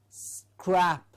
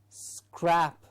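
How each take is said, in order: Both takes have the same delivery.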